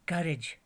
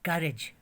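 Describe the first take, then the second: The two takes are said the same way.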